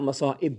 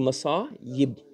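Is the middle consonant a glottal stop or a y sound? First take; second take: glottal stop; y sound. First: The middle consonant is a glottal stop. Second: The middle consonant is a y sound. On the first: The speaker calls it wrong. "Not masa'ib" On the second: The speaker calls it right. "It's supposed to be masa'ib"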